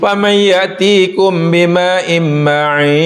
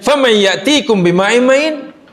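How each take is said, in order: First: It ends with a falling, statement-like tune. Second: It ends with a rising, question-like tune.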